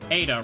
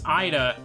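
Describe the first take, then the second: First: The name begins with an "ay" sound. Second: The name begins with an "eye" sound. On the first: The name works as a pun on nurse. The speaker calls it right. "it has to be said Ada" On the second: The pun on nurse is lost. The speaker calls it wrong. "if it's Ida, I feel like it loses the pun"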